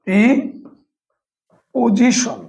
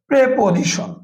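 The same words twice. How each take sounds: First: প্রিপোজিশন drawn out slowly, syllable by syllable. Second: Said in the usual way. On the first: Shown as a demonstration. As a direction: split প্রিপোজিশন into slow separate syllables. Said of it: "তাহলে এই দেখেন". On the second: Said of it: "যেমন আমি যদি বলি".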